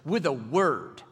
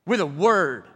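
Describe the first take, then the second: First: Said in the usual way. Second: "with a word" punched out loud; emphatic. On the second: Shown as a demonstration. Preacher stressing Jesus's power, loud emphasis. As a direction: hit "with a word" hard.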